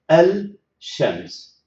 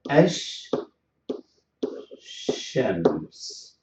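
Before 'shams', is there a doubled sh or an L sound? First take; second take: L sound; doubled sh. First: An L sound is heard before shams. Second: A doubled sh sound replaces the L. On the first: The speaker calls it wrong. "the poor tongue will move from lam to sheen, and that is very exhausting" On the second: The speaker calls it right. "we will stop at the sheen twice"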